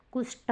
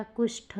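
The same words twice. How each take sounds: First: कुष्ठ ending in a hard "ṭ"; wrong, unaspirated. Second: कुष्ठ ending in breathy "ṭh"; correct, aspirated. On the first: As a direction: say कुष्ठ as "kusṭ", no puff. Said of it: "नहीं होता". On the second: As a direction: say कुष्ठ as "kusṭh", with a puff. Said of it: "होता है". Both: Shown as a demonstration.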